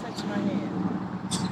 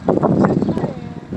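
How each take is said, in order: First: Slow soft plea; soft slow coax. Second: Slow whispered plea; whispered coaxing. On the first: Coaxing the tree, slow soft plea. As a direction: murmur it slowly. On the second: Begging the tree in a slow whisper. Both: Real, not acted.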